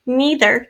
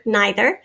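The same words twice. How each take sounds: First: "Neither" said as NEE-ther; long E pronunciation. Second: "neither" said as NYE-ther; long I pronunciation. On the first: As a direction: say "Neither" with a long E in the first syllable. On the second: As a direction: say "neither" with a long I in the first syllable. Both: Shown as a demonstration. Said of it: "can be pronounced two different ways".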